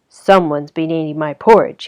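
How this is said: A deep, gruff, growling voice.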